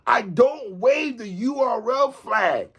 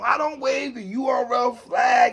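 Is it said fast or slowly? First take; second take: slowly; fast. First: It is said slowly. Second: It is said at normal speed.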